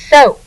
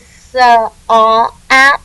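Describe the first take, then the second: First: The vowel sounds as one long O. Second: The vowels sound separately, as O then A. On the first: The speaker calls it right. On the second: The speaker calls it wrong.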